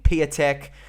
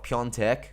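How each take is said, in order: First: The name is said with a plain 'a' sound. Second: The name is said with an 'on' sound. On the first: The speaker calls it wrong. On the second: The speaker calls it right.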